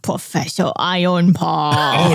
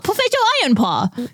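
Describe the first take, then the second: First: It is said in a sinister, villainous way. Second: It is said in a friendly, heroic way. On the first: The character is a villain. "That's a bad guy" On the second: The character is a good guy. "that's a good guy"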